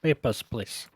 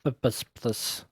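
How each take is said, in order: First: Mock Russian border guard accent; a lightly put-on Russian accent. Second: Softer, slow mock Russian accent; drawn-out Russian guard voice. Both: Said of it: "not doing Russian accent any favors".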